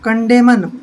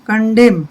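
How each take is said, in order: First: The final n is sounded after the m. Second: The final n is silent after the m. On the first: The speaker calls it wrong. "कंडेमन नहीं पढ़ना है" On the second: The speaker calls it right. "एन silent रहेगा"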